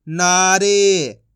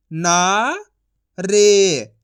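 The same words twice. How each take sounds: First: Said in the usual way. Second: ना rising long, pause, रे; syllable by syllable. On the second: Shown as a demonstration. Teacher sounding out for learners, syllable by syllable. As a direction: leave a gap between ना and रे. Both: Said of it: "एक एक अक्षर का उच्चारण".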